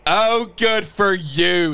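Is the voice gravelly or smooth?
smooth. The voice sounds smoother and clearer.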